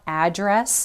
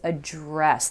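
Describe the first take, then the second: First: The stress is on the first syllable. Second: The stress is on the second syllable. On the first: It names where a house or building is located. The speaker calls it wrong. "this is not address. That's a noun" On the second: It means to deal with a problem or concern. The speaker calls it right. "The emphasis is on that second syllable"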